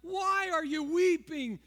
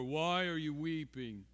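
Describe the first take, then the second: First: It is said in a bright, joyful tone. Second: It is said in a flat, somber tone. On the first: The question comes from someone who knows good news. The speaker calls it right. "is a joyful question" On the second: The question expresses sorrow and sadness. The speaker calls it wrong. "we read it with those stoic words"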